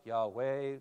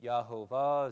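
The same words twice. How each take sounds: First: "Yahweh" said as YAH-way; alternative pronunciation. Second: "Yahovah" said as yah-ho-VAH; candidate pronunciation. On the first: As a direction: sound out "Yahweh" in two syllables, yah-way. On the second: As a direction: sound out "Yahovah" in three syllables, yah-ho-vah. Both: Shown as a demonstration. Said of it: "we don't know how you pronounce".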